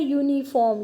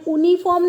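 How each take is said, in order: First: यूनिफॉर्म begun with a clear "yoo" glide; correct y start. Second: यूनिफॉर्म begun with a bare "oo", no y sound; wrong vowel start. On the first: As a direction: say यूनिफॉर्म as "yoo-niform", y sound first. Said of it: "हम क्या बोलते हैं?". (यूनिफॉर्म को साफ़ य से "यूनिफॉर्म" बोलना) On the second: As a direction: say यूनिफॉर्म as "oo-niform" without the y. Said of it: "यहाँ पे हम यूनिफॉर्म नहीं बोलते हैं". (यूनिफॉर्म को बिना य के "ऊनिफॉर्म" बोलना) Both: Shown as a demonstration.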